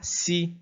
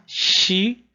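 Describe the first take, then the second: First: The syllable begins with a plain 's' sound. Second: The syllable begins with an 'sh' sound. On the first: The speaker calls it wrong. "A gente não vai fazer sa, si" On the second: The speaker calls it right. "A gente vai fazer sa, shi"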